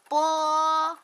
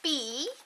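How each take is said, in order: First: The letter is read as the pinyin sound bo. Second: The letter is read like the English name. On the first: The speaker calls it right. "it's bo" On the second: The speaker calls it wrong. "Oh no"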